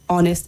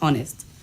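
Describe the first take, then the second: First: The word begins without an H sound. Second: The word begins with an H sound. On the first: The speaker calls it right. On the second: The speaker calls it wrong.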